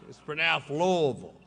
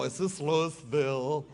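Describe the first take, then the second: First: Louisville swallowed as "Lovel"; correcting the crowd, Louisville said "Lovel"; local Louisville. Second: Louisville said "Looeesville"; mock outsider saying Louisville fully; tourist Louisville. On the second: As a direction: spell out Louisville like an outsider, Looey-ville. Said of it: "don't ever go". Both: Shown as a demonstration.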